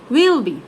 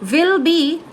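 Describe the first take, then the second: First: The words are squeezed together and the vowels reduced. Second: Both words are said fully, with clear vowels. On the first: "They just contract everything" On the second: "So will be turns to"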